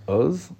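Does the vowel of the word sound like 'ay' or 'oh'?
oh. The vowel sounds like 'oh'. This is the non-Lubavitch way of saying it. The speaker calls it wrong. "not oz"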